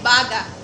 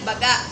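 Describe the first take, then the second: First: Said slowly, the final vowel cut off in the throat. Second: Said quickly, the final vowel cut off in the throat. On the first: "mabagal at sarado ang dulong patinig ng salita" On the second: "mabilis ang pagbigkas sa maragsa"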